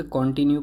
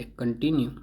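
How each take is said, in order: First: कंटिन्यू with an o, "kon-tinyu"; common mispronunciation. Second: कंटिन्यू with reduced first vowel, "kuhn"; correct pronunciation. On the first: Teacher showing how many people read it, कंटिन्यू said kon-tinyu. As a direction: open कंटिन्यू on a full "kon". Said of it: "काफ़ी लोग इसे कंटिन्यू पढ़ते हैं". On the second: Teacher giving learners the right form, कंटिन्यू said kuhn-tinyu. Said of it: "सही pronunciation ये है". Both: Shown as a demonstration.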